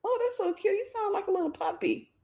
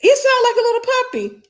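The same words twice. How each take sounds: First: Much higher, soft and sugary, cooing at the pet; high sweet cooing. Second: High and louder, laughing through the words; laughing high repeat. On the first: Retold or imitated. Owner coos softly and high at her new pet. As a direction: coo it softly up high like praising a kitten. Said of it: "And he's". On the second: Real, not acted. She repeats her own line to viewers, laughing high. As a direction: crack up while squeaking it out.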